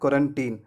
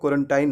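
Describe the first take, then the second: First: The last syllable sounds like 'teen'. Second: The last syllable sounds like 'tine'. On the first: The speaker calls it right. "Last syllable को टाइन नहीं पढ़ना है, इसे पढ़ना है टीन" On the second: The speaker calls it wrong. "क्वारंटाइन कहना गलत है"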